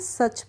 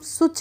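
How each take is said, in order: First: The vowel is an 'uh' sound. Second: The vowel is an 'oo' sound. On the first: The speaker calls it right. "सच पढ़ते हैं।" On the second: The speaker calls it wrong. "इसको हम सुच नहीं पढ़ते हैं।"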